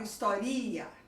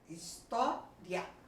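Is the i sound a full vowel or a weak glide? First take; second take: full vowel; weak glide. First: The i is a full, separate vowel. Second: The i is weak, gliding into a stronger a. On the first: The speaker calls it wrong. "eu não falo historia" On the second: The speaker calls it right. "O A é muito mais forte"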